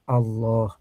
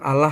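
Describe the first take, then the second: First: The word is said with a thick, heavy sound. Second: The word is said with a thin, light sound. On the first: The speaker calls it right. "ngucapinnya Allah ... Tebal, ya tafkhim" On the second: The speaker calls it wrong. "Cara bacanya bukan Allah ya"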